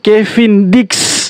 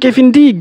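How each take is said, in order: First: The name ends with a ks sound. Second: The name ends with a plain k sound. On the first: The speaker calls it right. "Dia punya nama tuh Kevin Dix. D I K S" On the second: The speaker calls it wrong. "Bukan Kevin Dick"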